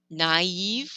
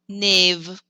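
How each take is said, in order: First: The two vowels are pronounced separately. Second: The two vowels merge into one sound. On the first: The speaker calls it right. "we pronounce the A and the E separately" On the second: The speaker calls it wrong. "if I forgot the tréma, that'd be pronounced nave. That's not correct"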